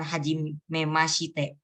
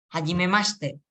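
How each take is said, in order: First: "hajimemashite" slowly, sounding out the i as ma-shi-te; the wrong way, with every vowel in "hajimemashite" said; slow "hajimemashite" with the shi fully voiced; wrong pronunciation. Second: "Hajimemashite" with the i dropped, said as hajimemaste; the correct way, "Hajimemashite" run together as mas-te; "Hajimemashite" with a silent i after the sh; right pronunciation. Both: Shown as a demonstration. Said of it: "Nah, ini i-nya itu jangan dibaca".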